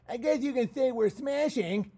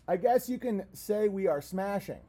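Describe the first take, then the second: First: It is read in a put-on character voice. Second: It is read in the speaker's normal voice.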